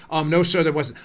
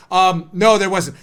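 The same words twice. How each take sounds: First: Low, soft courtroom answer; quiet witness. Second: Low-pitched answer, firm on "no"; witness repeating himself. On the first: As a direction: answer meekly, low and trailing away. Witness answer, too quiet to hear. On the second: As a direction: answer lower but audibly for the court. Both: Acted.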